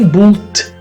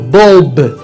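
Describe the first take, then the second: First: The word ends with a T sound. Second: The word ends with a B sound. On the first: The speaker calls it wrong. "não existe nenhum T final aqui" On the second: The speaker calls it right. "O que nós temos é um som de B"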